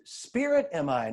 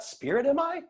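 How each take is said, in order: First: "Spirit am I" calmly affirmed, falling; statement, not question. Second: "Spirit am I?" high, rising at the end; questioning. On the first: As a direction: state "Spirit am I" as truth, ending down. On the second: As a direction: ask "Spirit am I" as if unsure, climbing on I. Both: Shown as a demonstration.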